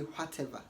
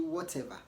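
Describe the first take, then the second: First: It is said with an h sound. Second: It is said without an h sound. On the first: The speaker calls it wrong. "Don't say whatever" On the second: The speaker calls it right. "say whatever"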